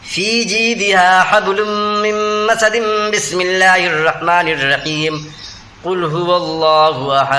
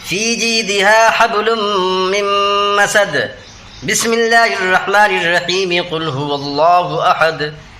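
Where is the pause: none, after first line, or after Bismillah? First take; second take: after Bismillah; after first line. First: First part joined, then a pause after Bismillah. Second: A pause after the first part, then joined.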